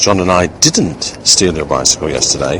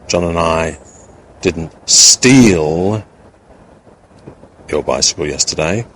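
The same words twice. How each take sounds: First: The word didn't is stressed. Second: The word steal is stressed. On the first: The act is completely denied. "a plain emphasis on the word that demonstrates the meaning of the sentence, which is a complete denial of the act" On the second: Something else was done to it, not stealing. "with the implication that we may not have stolen it, but we may have done something else in relation to it"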